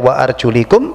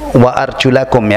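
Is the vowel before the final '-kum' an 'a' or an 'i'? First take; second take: i; a. First: The vowel before the ending is 'i'. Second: The vowel before the ending is 'a'. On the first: The feet are only wiped, like the head. "Kalau dibaca wa arjulikum berarti untuk kaki mengikuti hukum kepala diusap" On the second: The feet must be washed. "membacanya gitu"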